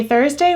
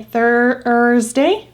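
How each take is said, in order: First: Said in the usual way. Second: Thursday drawn out as THER-zday; slow demo of Thursday. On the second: Shown as a demonstration. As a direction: stretch Thursday slowly. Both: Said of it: "we say Thursday".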